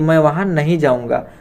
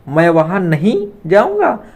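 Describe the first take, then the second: First: It is said as a plain, falling statement. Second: It is said in a rhetorical, questioning tone.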